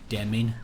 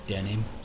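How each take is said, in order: First: The M sound comes before the N sound. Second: The N sound comes before the M sound. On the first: The speaker calls it wrong. "I had a mate who used to say demin" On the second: The speaker calls it right. "instead of denim"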